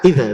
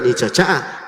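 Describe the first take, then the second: First: The middle consonant sounds like 'dz'. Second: The middle consonant sounds like 'ch'. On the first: The speaker calls it right. "harus tahu perbedaan antara dzal" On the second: The speaker calls it wrong. "Bukan ica ca"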